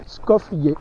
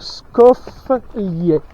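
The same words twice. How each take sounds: First: Said in the usual way. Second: "Scoflier" said slowly and loudly, as skoh-FLYEH with the J as a Y; Italian pronunciation. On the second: Shown as a demonstration. (prononcer « Scoflier » lentement et fort, à l'italienne, skoh-flié) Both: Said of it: "ça se prononce à l'italienne".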